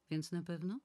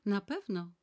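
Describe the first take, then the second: First: Questioning. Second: Louder, higher, firmly falling answer; firm confirmation. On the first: Asking to confirm the appointment. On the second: Decisive yes, landing hard on na. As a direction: Nana firmly confirming the appointment to Tricon. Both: Acted.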